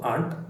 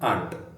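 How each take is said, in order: Both takes have the same delivery.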